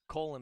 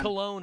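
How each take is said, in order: First: The name sounds like 'Colin'. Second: The name sounds like 'Cologne'. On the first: The name is said this way as a mocking jab. The speaker calls it wrong. "but Colin because he's an ass" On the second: This is the proper way to say the name. The speaker calls it right. "if you want to pronounce it right"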